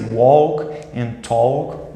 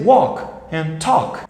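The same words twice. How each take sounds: First: The L sound is pronounced in both words. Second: The L sound is silent in both words. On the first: The speaker calls it wrong. "I hear lots of Brazilians trying to say" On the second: The speaker calls it right. "you're not going to pronounce the L"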